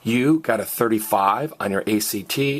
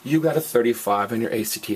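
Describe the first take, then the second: First: The voice rises at the end. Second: The voice falls at the end. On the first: It asks whether this happened. "is a question" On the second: It states that this happened. "is a statement"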